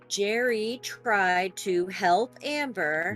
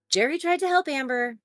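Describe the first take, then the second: First: It is said very slowly and deliberately. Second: It is said at a medium speed.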